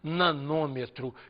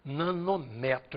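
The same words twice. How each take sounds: First: The stress falls on the syllable 'nô'. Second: The stress falls on the syllable 'me'. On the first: The speaker calls it wrong. "eu não posso dizer nanômetro, que nem fala quilômetro" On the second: The speaker calls it right. "o acento tem que ser na unidade de comprimento e não no prefixo"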